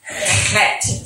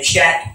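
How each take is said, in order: First: It starts with a harsh, gargled throat sound. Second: It starts with an English 'ch' sound. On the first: The speaker calls it right. "It's a hard H-E sound. ... a gargled H-E" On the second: The speaker calls it wrong. "which is the English way of saying it"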